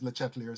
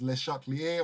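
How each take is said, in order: First: The name is said with English pronunciation. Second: The name is said with French pronunciation. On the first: The speaker calls it wrong. "I'm so used to pronouncing his name as" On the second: The speaker calls it right. "there's a French pronunciation which I think is"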